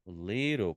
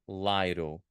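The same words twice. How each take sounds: First: The first vowel is a short 'i' sound. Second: The first vowel is an 'eye' sound, as in 'bike'. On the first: The speaker calls it right. "Qual que é o diferentão? Little" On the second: The speaker calls it wrong. "a gente não fala little"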